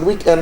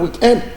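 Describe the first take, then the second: First: It is said with an English pronunciation. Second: It is said with a French pronunciation.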